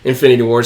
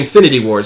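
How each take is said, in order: First: The words are mumbled and indistinct. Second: The words are articulated clearly and distinctly. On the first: The speaker calls it wrong. "I mumbled it" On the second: The speaker calls it right. "I had to say it clear"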